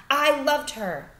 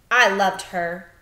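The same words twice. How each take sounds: First: Insistent father. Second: Grieving father. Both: Acted. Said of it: "said the father".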